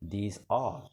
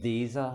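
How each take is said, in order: First: The word 'are' is said fully and clearly. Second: The word 'are' is weak and barely heard. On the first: "إذا أردنا قراءتها نقول" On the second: "غالبا لا ينطق الآر هكذا بل تنطق are"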